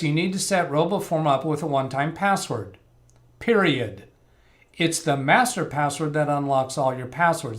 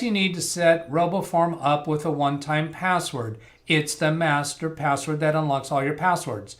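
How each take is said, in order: First: There is a full stop break after password. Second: The two sentences run together with no full stop.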